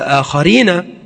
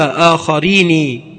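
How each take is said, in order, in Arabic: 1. النون الأخيرة تُنطق بفتحة. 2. النون الأخيرة تُنطق بكسرة. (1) "الأصل الفتح" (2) "جاءت بكسر النون"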